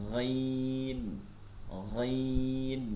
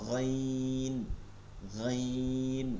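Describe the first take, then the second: The two takes are said the same way.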